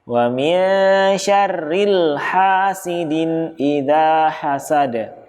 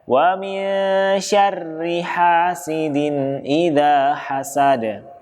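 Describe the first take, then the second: First: An l sound is added after syarri. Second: No l sound follows syarri. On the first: The speaker calls it wrong. "dengan disisipin huruf lam" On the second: The speaker calls it right.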